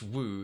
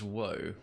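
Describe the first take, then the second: First: The vowel is a rounded 'oo' sound. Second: The vowel is a gliding 'oh' sound. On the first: This is the Dutch way to say it. "If it's in Dutch" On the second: This is the English way to say it. "If it's in English"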